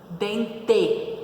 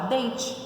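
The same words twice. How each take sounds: First: It is said Paraná-style, ending in an 'e'. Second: It is said São Paulo-style, ending in an 'i'.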